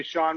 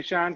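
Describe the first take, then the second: First: "Sean" with a broad ah, like Shawn. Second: "Sean" with a flat a, like Shan. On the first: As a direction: say "Sean" rhyming with dawn. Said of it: "some will say Sean". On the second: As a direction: say "Sean" rhyming with pan. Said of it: "Some will say Sean". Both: Shown as a demonstration.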